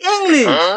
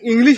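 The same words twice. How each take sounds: First: The word is said in a showy, fancy way. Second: The word is said in a plain, ordinary way. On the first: The speaker calls it right. "এটা হবে English" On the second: The speaker calls it wrong. "এই কথাটা English হবে না"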